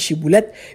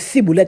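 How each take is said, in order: First: The word begins with an 'sh' sound. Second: The word begins with an 's' sound. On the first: This is the required password form. The speaker calls it right. "il pas qu'à dire chiboulette" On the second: This form gives away the speaker's tribe. The speaker calls it wrong. "il dit ciboulette"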